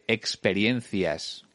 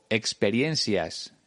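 First: The c sounds like th, Spain style. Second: The c sounds like s, Mexican style.

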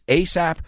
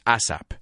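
First: It is said as a single English word. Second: It is said with a Spanish pronunciation. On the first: The speaker calls it right. "in English it's ASAP" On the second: The speaker calls it wrong. "I know in Spanish it's ASAP"

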